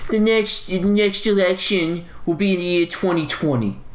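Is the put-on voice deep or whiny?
whiny. A whiny, weaselly put-on voice. The speaker calls it right. "His voice isn't so deep. It's sort of like whiny and weaselly"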